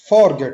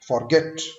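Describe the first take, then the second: First: The stress is on the first syllable. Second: The stress is on the second syllable. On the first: The speaker calls it wrong. "Forget आपने नहीं बोलना" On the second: The speaker calls it right. "Second syllable पे stress देना है"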